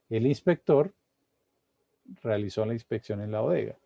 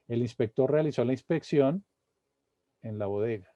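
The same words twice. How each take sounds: First: There is a pause near the start. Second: There is a pause after inspección. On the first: "si la pusiera aquí al principio" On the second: "Vuelvo a leerla con la pausa"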